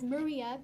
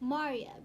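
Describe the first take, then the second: First: The name is said the usual American way. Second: The name is said a non-American way. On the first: The speaker fits in with American friends. "that's how it's primarily pronounced in the United States"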